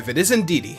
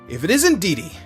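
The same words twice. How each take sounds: First: It sounds calmer and less cheerful. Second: It sounds very cheerful and overly happy.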